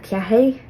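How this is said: The slender R sounds like a 'y'. This is how it is said in parts of Donegal. "they'll pronounce slender R's like a Y sound"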